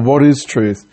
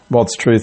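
First: The question is said in a genuinely curious tone. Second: The question is said in a dismissive tone. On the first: The asker really wants to know the answer. "It's a genuine question and I have no clue" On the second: The asker does not care about the answer. "sort of a dismissive comment like"

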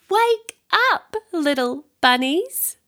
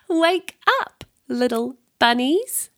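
First: The words are said at a louder volume. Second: The words are said at a softer volume.

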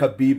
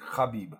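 First: The first sound is a plain hard K. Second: The first sound is a throaty, French-R-like sound. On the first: The speaker calls it wrong. "I know it's not Khabib though" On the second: The speaker calls it right. "KH is like they're like a French R"

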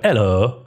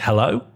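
First: It is said in a put-on, disguised voice. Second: It is said in a natural speaking voice. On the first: "through the voice changer, I go" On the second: "if I'd say normally, I'd say hello"

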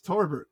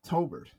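First: An R sound follows the first vowel. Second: No R sound follows the first vowel. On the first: The speaker calls it right. "It's Torbert" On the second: The speaker calls it wrong. "not Tobert"

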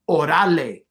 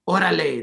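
First: The stress is moved over by one syllable. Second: The stress falls on its usual syllable. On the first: The speaker calls it wrong. "The accent is off. ... By moving the accent a syllable" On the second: The speaker calls it right. "instead of saying orale"

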